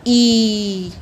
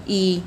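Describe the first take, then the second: First: ई held long and louder; long vowel drawn out. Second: ई said short and clipped; quick, brief ई as a short vowel. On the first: Teacher to children, ई drawn out long. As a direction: stretch ई to double length. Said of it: "ज़्यादा समय लगा". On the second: Teacher to children, saying ई short. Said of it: "इनके लिए हमें ज़्यादा समय नहीं लेना पड़ा". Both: Shown as a demonstration.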